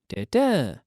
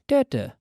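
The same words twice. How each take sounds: First: The stress is on the second syllable. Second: The stress is on the first syllable. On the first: It stands for a teen number. "eighteen, da-da ... the emphasis falls on the second syllable" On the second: It stands for a number ending in zero. "eighty, da-da ... the emphasis falls on the first syllable"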